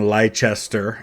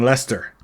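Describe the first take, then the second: First: Every letter of the name is pronounced. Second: Letters are dropped, making it shorter. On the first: The speaker calls it wrong. "instead of saying Leicester" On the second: The speaker calls it right. "you're just saying Leicester because it's quicker"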